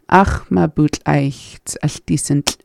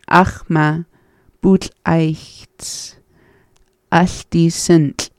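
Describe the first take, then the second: First: The phrase is said at normal reading speed. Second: The phrase is said slowly and deliberately.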